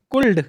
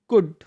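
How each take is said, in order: First: "कुल्ड" with the l sounded, the way some say it; wrong pronunciation. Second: "कुड" with a silent l, just kud; correct pronunciation. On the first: Teacher showing children the wrong way to say could. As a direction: show the mistake, l spoken out. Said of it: "ये कुल्ड नहीं होता". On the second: Teacher modelling could for children, l silent. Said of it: "ये होता है कुड।". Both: Shown as a demonstration.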